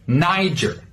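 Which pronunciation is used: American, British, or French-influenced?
American. It has a hard R and a J-like G. "an American pronunciation, you should use a hard R sound... more like a J"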